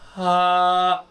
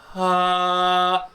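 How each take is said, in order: No difference in how they are said.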